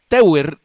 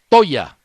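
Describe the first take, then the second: First: The name is read with Spanish letter sounds. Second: The name is read with German sounds. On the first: The speaker calls it wrong. "como le decimos nosotros" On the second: The speaker calls it right. "se pronuncia Toya"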